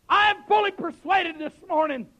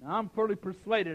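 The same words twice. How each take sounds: First: Raised, ringing preacher's cry; emphatic pulpit declaration. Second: Said in the usual way. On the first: Real, not acted. Preacher restating his conviction to the church, emphatic declaration. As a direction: declare it forcefully to the whole room.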